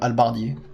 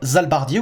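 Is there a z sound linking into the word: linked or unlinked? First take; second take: unlinked; linked. First: The word starts with no linking z sound. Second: A z sound is linked before the word. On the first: "ou faut dire" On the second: "On a le droit de dire"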